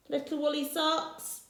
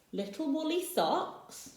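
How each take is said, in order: First: Socks rising, a touch incredulous; doubtful question. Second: Said in the usual way. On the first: Acted. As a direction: query the item in disbelief. Rossetti questions the list.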